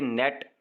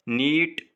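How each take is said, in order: First: नेट with a short vowel; short vowel net. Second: नीट with a long held vowel; long vowel neat. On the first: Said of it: "ये short vowel है". (नेट छोटे स्वर से) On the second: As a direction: stretch नीट. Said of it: "तो ये long vowel है". (नीट लंबे स्वर से) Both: Shown as a demonstration.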